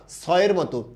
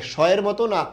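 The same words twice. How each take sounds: First: "সয়ের" said as "soyer" with a clean s; sharp s at the start of "সয়ের"; s sound. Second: "সয়ের" said as "shoyer" with sh; hushing sh at the start of "সয়ের"; sh sound. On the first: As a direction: say "সয়ের" with s rather than sh. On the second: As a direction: say "সয়ের" with a sh, as the rejected option. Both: Shown as a demonstration. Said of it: "অবশ্যই সয়ের মতো হয়েছে".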